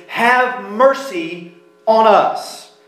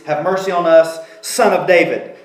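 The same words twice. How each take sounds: First: "Have mercy on us" drawn out slowly, weight on "have"; emphatic plea. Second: Said in the usual way. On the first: Shown as a demonstration. Preacher stressing the blind men's plea, slow and emphatic. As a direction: lean on "have" like an urgent plea. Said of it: "that means it's emphatic". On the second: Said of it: "but in Greek it's".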